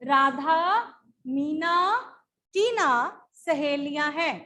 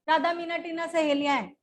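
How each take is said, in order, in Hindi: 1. हर नाम के बीच छोटा विराम होता है। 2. नाम बिना किसी विराम के एक साथ जुड़ जाते हैं। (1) "इन शब्दों में थोड़ा सा विराम आ रहा है, थोड़ा सा पॉज आ रहा है" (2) "अगर इसमें पॉज ना दे तो क्या होगा?"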